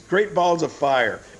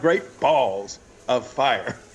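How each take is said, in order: First: The stress falls on the word fire. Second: The stress falls on the word balls. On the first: The speaker calls it right. "The emphasis should be on the word fire" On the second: The speaker calls it wrong. "you don't put the emphasis on the word balls"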